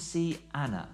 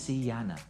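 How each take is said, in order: First: The words are said without a linking sound. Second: A y sound links the two words.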